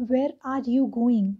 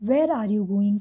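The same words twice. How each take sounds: First: Very slow, with the pitch rising on "Where" then falling at the end of "going"; a drawn-out model of rise and fall on "Where are you going?"; slow intonation demo. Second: Everyday pace, tone dropping from "Where" to "going"; brisk intonation demo. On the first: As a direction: stretch "Where are you going?" out, letting the tone climb on "Where" and drop on "going". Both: Shown as a demonstration. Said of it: "तो where में rise हुआ आपके tone का, फिर fall होता है".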